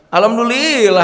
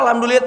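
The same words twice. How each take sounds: First: It is said in a proud, self-praising tone. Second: It is said in a modest, sincere tone. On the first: The speaker is really praising himself. The speaker calls it wrong. "Engkau mengucapkan alhamdulillah gitu tapi muji sorangan itu mah" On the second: The praise is given to God. The speaker calls it right. "Harus tadi Pak alhamdulillah teh"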